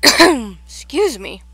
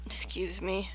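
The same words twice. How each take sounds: First: Slow, much louder excuse me. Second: Soft whispered excuse me. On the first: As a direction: say it loud and drawn out. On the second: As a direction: whisper it, unvoiced. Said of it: "I'm eating". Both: Real, not acted.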